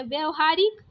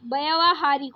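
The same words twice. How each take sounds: First: व्यवहारिक with a short a after vy; wrong short first vowel. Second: व्यावहारिक with a long vyaa; correct long first vowel. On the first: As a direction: say व्यवहारिक as "vyuh-va-haa-rik". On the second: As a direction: say व्यावहारिक as "vyaa-va-haa-rik". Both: Shown as a demonstration. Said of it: "आ की मात्रा".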